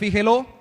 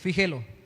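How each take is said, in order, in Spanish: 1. La sílaba tónica es la última. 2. La sílaba tónica es la del medio. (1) "tendría tilde en la O" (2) "es grave y termina en vocal"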